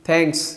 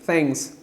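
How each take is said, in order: First: It starts with a puffed, stop-like 'th' sound. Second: It starts with a puffed, stop-like 'th' sound.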